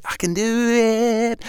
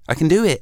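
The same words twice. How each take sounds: First: High, drawn-out sung notes; singing. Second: Said in the usual way. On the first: Shown as a demonstration. Auditioning to Sony as a singing host, sung high and long. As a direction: sing it out high, holding each note. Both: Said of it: "I can sing".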